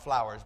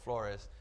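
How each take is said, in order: First: "Flowers" said like the English word, FLOW-ers; mock wrong reading "Flowers"; wrong name. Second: "Flores" said FLOR-es, rolled like Spanish; right name. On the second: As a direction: correct "Flores", two clear syllables. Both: Shown as a demonstration. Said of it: "Not Flowers, but Flores".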